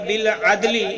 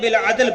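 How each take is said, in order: First: The phrase ends with a short final vowel. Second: The phrase ends on a bare consonant. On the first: The reading continues without stopping. "वक़्फ़ नहीं करेंगे तो इसको पढ़ेंगे" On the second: The reader stops at this point. "जब हम वक़्फ़ करेंगे तो बिल अदल पढ़ा जाएगा"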